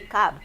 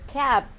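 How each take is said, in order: First: The vowel sounds like the vowel in cup. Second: The vowel is a short A, as in cat. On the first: The speaker calls it wrong. "So we want to say cab" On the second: The speaker calls it right. "it's cab because this is a short A"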